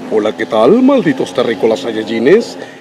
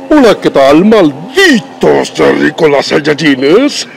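First: A monstrous voice said without added force. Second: A monstrous voice said with strong added force. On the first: "tiene una voz así como monstruosa" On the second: "si juntas todo esto, ya sonaría así"

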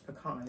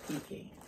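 First: It is said the non-Southern way. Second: It is said the Southern low-country way.

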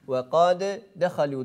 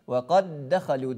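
First: The two d sounds are pronounced separately. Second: The two d sounds merge into one long d. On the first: The speaker calls it wrong. "diye okumak fevkalade zor" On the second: The speaker calls it right. "diye idgam ediyoruz"

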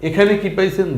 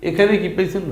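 The two takes are said the same way.

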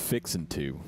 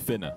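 First: It is said slowly as two drawn-out words. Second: It is squeezed into one short, clipped word. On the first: "Or it's either real drawn out" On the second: "in South Carolina, where I'm from, it's fitna"

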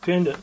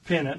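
First: It is said with a d sound in the middle. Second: It is said with no d sound in the middle. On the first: The speaker calls it wrong. "Spelled like pendant" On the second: The speaker calls it right. "Or pennant, I think is how you pronounce it"

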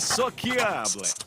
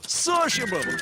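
First: The middle is said with a hard 'ki' sound. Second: The middle is said with a soft 'sh' sound. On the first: The speaker calls it wrong. "Та яке сокіабле!" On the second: The speaker calls it right. "товариський!"

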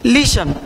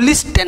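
First: The t sound is silent. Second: The t sound is pronounced. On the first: The speaker calls it right. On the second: The speaker calls it wrong. "इसको लिस्टन नहीं पढ़ेंगे"

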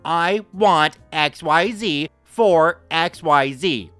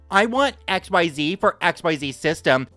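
First: It is said louder, angrier and much slower. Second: It is said at normal loudness and pace.

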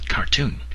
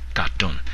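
First: It is said with an English pronunciation. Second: It is said with a Burmese pronunciation. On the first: "the proper English pronunciation is cartoon" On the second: "in Burmese, people universally mispronounce it as katon"

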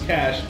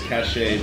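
First: The word ends with a 'sh' sound. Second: The word ends with an 'ay' sound. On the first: The speaker calls it right. "is actually pronounced the same way as cash" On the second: The speaker calls it wrong. "Tempting to pronounce this cachet, but that pronunciation belongs to the word C A C H E T"

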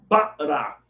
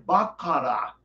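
First: The middle consonant is a glottal stop. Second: The middle consonant is a k sound. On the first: The speaker calls it right. "Isso é uma parada vocálica" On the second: The speaker calls it wrong. "Outros árabes que falam sotaque diferente podem dizer bakara"

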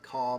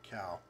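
First: The vowel sounds like the one in 'saw'. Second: The vowel sounds like the one in 'how'. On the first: The speaker calls it wrong. "sometimes people say caw" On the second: The speaker calls it right. "but it's actually cow"

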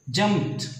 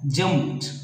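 The two takes are said the same way.

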